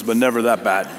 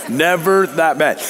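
First: Said in the usual way. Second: "Never" stretched and stressed, slower phrase; emphatic repeat. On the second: Real, not acted. Preacher joking about his own boring sermons, emphatic repeat. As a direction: lean hard and slow on "Never".

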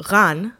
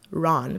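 First: Ran said drawn out with its native Hebrew sound; "Ran" pronounced as a foreign name; native pronunciation of name. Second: Said in the usual way. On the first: Shown as a demonstration. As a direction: say "Ran" slowly, the way he would. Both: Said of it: "Ron, basically".

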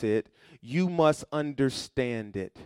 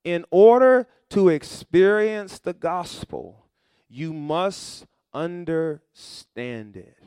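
First: Said in the usual way. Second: Slow, loud, every word weighted; slow emphatic repeat. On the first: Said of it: "point stated". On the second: Shown as a demonstration. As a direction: drag it out so it sinks in. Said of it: "point repeated slowly".

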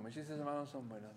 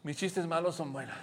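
First: Mis chistes malos son buenos said much softer, nearly murmured; last repetition almost a whisper; fading mantra. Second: Said in the usual way. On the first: Shown as a demonstration. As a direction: let the mantra fade into sleep. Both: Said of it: "te vas a repetir a ti mismo".

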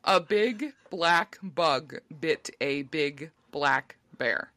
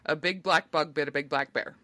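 First: Very slow, word by word; slow deliberate enunciation; very slow careful. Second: Said in the usual way. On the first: Real, not acted. Slow careful tongue twister try.

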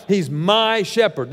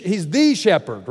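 First: "my" stressed, slow and deliberate. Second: "the" stressed, contrasting with "my". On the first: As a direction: lean on "my" in "He's my shepherd". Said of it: "This is first and foremost about a personal relationship". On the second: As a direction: lean on "the" in "he's the shepherd". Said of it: "But he's not my shepherd all throughout Scripture". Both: Shown as a demonstration.

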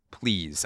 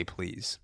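First: Said in the usual way. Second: A much softer, almost breathed please. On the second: Pretend. Softer please to the Five Guys cashier. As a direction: drop the volume right down on please.

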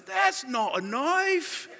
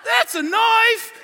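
First: Slow, high-pitched Australian movie-hero imitation; playful quote of an Aussie film line; Nick Dundee. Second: Slow, high shout as the Australian bushman; hammed-up Aussie hero's boast; Nick Dundee. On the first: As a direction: draw it out as the unimpressed bushman. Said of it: "All of a sudden he goes". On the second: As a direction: belt out the film catchphrase, long and loud. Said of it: "And he's like".

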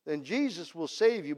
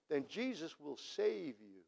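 First: Said in the usual way. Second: Hushed and slow on "Jesus"; soft, slow "Then Jesus will save you". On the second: Shown as a demonstration. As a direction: say it gently, almost to yourself.

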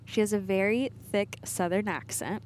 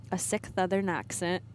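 First: Said in the usual way. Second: "sick Southern" with s and th swapped, as "sick Thouthern"; tongue-slipped "sick Southern". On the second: Shown as a demonstration. Wife mocking her own slip, "sick Southern" said as tongue-tied "sick Thouthern". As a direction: trip over "sick Southern", lisping the S of "Southern". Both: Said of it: "was trying to say thick Southern accent".

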